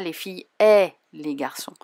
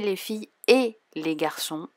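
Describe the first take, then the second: First: The middle word has an open 'è' vowel. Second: The middle word has a closed 'é' vowel. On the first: The speaker calls it wrong. "Je ne dis pas" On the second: The speaker calls it right. "Si je dis les filles et les garçons, on entend bien et"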